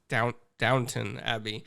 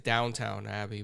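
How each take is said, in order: First: The second syllable sounds like 'tun'. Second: The second syllable sounds like 'town'. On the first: The speaker calls it right. "but it's Down Downton Abbey" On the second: The speaker calls it wrong. "I always say it wrong. I say it's Downtown Abbey"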